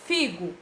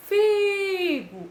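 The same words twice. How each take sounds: First: Said in the usual way. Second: Figo with the first syllable Fi drawn out; stress on Fi. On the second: Shown as a demonstration. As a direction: lean on Fi in Figo. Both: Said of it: "Figo é uma paroxítona".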